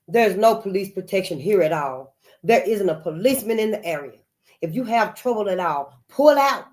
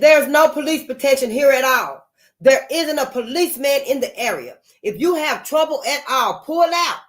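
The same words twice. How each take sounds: First: It is read flatly, without emotion. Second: It is read with urgent distress.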